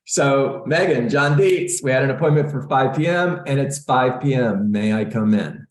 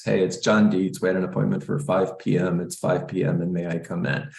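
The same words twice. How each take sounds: First: Higher, brighter, eager greeting at the door; upbeat and energetic. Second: Bored monotone mumble of the script, trailing off softer; the way most agents mumble the door script, flat and dull; flat, dull delivery. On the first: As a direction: say it with a smile and lift. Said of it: "Just like that". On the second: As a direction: sound like you don't care to be there. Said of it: "Most people talk like this". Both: Shown as a demonstration.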